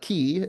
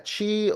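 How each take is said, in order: First: The first sound is a Q sound. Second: The first sound is not a Q sound.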